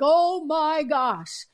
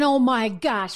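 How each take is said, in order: First: A slow, drawn-out, higher mock gasp of panic. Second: Said in the usual way. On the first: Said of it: "They're like". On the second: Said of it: "They should be saying".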